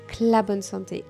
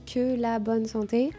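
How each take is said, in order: First: The words are shortened and run together. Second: Each sound is pronounced in full.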